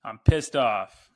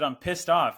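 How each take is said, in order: First: Slow, loud pissed off; mock angry greeting to the host; quoting the angry customer. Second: Louder, higher pissed off; retold furious customer; mock angry yell. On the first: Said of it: "Is that a reference from". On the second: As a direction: bark it like an irate customer. Customer insists she's angry.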